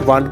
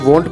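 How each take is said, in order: First: The vowel sounds like a full a. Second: The vowel sounds like a full o. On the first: "ना इसे आपने वांट पढ़ना है" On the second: "ना आपने इसे वॉन्ट पढ़ना है"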